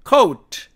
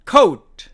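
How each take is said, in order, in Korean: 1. 영어 발음으로 말합니다. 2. 영어 발음으로 말합니다.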